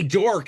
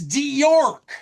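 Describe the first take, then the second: First: The name is said as one syllable, dork. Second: The name is said as two syllables, dee-york. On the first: The name is used as an insult. "it's dork and it's funny" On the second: The name is corrected to its intended form. "to pronounce it York"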